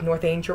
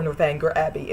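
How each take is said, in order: First: "Northanger" as north-AIN-jer; long a and soft g in "Northanger"; soft-g pronunciation. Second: "Northanger" as north-ANG-ger; hard g in "Northanger", like anger; hard-g pronunciation. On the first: Reviewer recommending it, "Northanger" said north-AIN-jer. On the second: Reviewer adding the other way, "Northanger" said north-ANG-ger. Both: Shown as a demonstration. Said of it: "pronounced two different ways".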